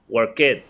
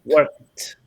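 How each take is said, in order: First: The word ends with an extra 'id' syllable. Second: The word ends with a short t sound. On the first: The speaker calls it wrong. "Work it, no" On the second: The speaker calls it right.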